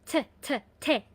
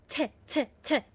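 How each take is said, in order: No difference in how they are said.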